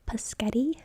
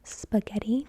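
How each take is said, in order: First: The word begins with a p sound. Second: The word begins with an sp cluster. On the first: "cliche childlike pronunciation" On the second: "instead of spaghetti"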